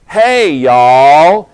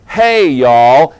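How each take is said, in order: First: Loud drawn-out Southern "Hey, y'all"; Southern greeting. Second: Loud Southern "Hey, y'all" back; preacher's Southern reply; Southern greeting. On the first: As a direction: call it out like a Tennessee kid, higher. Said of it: "teach them Southern". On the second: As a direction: answer with a hearty East Tennessee twang. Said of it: "I still know the Southern". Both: Retold or imitated.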